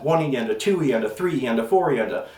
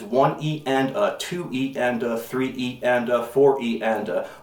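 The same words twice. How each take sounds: First: The counting is said at a fast pace. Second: The counting is said at a slow pace. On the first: "usually they're very fast" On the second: "the way we pronounce this is"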